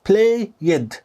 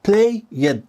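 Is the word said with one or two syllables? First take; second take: two; two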